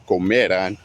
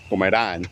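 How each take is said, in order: First: "comerán" wrongly stressed on ME; stress on middle syllable. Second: "Comerán" stressed on the last syllable, rán; stress on final A. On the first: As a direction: slowly punch the me in "comerán". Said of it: "not comerán". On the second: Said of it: "put the emphasis on the A". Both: Shown as a demonstration.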